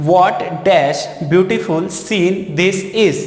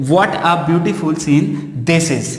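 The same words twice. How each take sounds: First: What dash beautiful scene this is बहुत धीरे, हर शब्द अलग; डिक्टेशन की तरह धीरे बोलो; slow dictation. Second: What a beautiful scene this is धीरे पढ़ो; सही वाक्य धीरे-धीरे दोहराओ; slow answer. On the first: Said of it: "इस तरह से". (छात्रों को प्रश्न धीमे पढ़कर सुनाना) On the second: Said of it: "तो यहाँ पे". (सही उत्तर धीमी गति से) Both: Shown as a demonstration.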